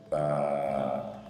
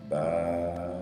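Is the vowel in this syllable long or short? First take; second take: long; long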